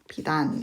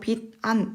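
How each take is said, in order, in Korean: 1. 두 단어는 빠르게 이어서 하나로 붙여 말합니다. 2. 두 단어는 잠깐 끊어서 따로 말합니다. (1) "빨리 읽어주는 거죠. 비단 이렇게 발음이 됩니다" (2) "띄어쓰기를 해서 빚 안 이렇게 발음을 해도 되지만"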